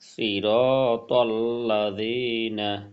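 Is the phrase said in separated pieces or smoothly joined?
joined. The syllables run together without pauses between. "একসাথে"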